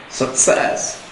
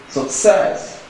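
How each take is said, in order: First: The stress is on the second syllable. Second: The stress is on the second syllable.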